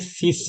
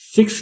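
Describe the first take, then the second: First: The word ends with a plain s sound. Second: The word ends with a ks sound. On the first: The speaker calls it right. "बल्कि सिस है" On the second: The speaker calls it wrong. "Pronunciation सिक्स नहीं है"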